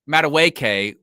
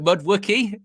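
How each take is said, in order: First: The name is pronounced in its usual way. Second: The name is garbled, sounding like Mudwookie. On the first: The speaker calls it right. "to say Madueke" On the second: The speaker calls it wrong. "was it Mudwookie?"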